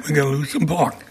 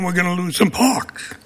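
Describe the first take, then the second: First: Softer, lower Brooklyn accent. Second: Said in the usual way. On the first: Shown as a demonstration. Speaker repeating himself to council, Brooklyn accent. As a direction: say it in Brooklyn speech. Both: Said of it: "In my Brooklyn accent".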